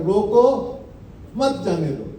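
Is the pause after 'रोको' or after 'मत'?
after रोको. The pause comes after 'रोको'.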